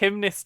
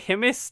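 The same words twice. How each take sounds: First: It sounds like the word gymnast. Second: It does not sound like the word gymnast. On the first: The speaker calls it wrong. "Hymnist sounds like gymnast" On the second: The speaker calls it right. "it just doesn't sound like I've quite made a word"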